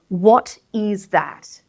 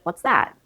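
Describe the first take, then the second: First: Both words are said in full, each stressed. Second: The two words merge into one contracted word. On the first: "We open up the contraction when we want to stress all of those words" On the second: "Instead of"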